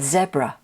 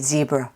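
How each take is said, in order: First: It is said the non-American way. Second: It is said the American way. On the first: "In other English-speaking countries they say" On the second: "In the United States we say"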